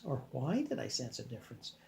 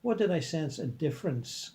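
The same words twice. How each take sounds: First: 더 조용히 고쳐 읽기; quieter corrected reread. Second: Said in the usual way. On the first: Real, not acted. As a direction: softly reread with why.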